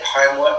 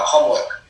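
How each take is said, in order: First: Said in the usual way. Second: "homework" said the way a non-English-speaking mother said it; mother's pronunciation. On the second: Shown as a demonstration. Guest showing how they said homework at primary school, mother's pronunciation. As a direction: say "homework" with a short, accented first vowel. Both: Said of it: "that's 'cause the way my mom said it".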